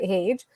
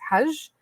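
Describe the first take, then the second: First: The name is said the anglicized way. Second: The name is said the Arabic way. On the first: This is the version he uses himself. "he's going by Hage" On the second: This is the original form of the name. "in Arabic, or the name that it should be pronounced as in the original is Hajj"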